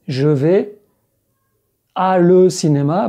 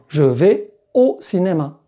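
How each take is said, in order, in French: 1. Les mots à et le se disent séparément. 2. Les mots à et le se fondent en un seul. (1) "on ne dit pas A le" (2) "mais au. ... Contraction"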